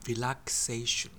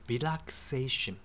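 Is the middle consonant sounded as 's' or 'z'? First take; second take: s; s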